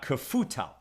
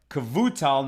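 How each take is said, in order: First: The middle consonant is an F sound. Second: The middle consonant is a V sound. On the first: The speaker calls it wrong. "not Kafutal" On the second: The speaker calls it right. "pronounced Kavutal with a V sound"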